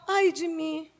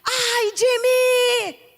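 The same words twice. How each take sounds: First: It is said quietly, not shouted. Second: It is shouted loudly.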